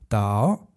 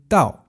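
First: The pitch rises from middle to high. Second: The pitch falls sharply from high to low.

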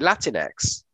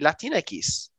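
First: It is said with an English letter name X. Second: It is said with Spanish sounds throughout. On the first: The speaker calls it wrong. "You just simply say Latin X" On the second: The speaker calls it right. "the way you pronounce it in Spanish should be"

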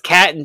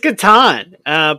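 First: It does not sound like Katana clipped. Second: It sounds like Katana without the final vowel. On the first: The speaker calls it wrong. "my son says Catan just to tick me off" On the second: The speaker calls it right. "it is Catan"

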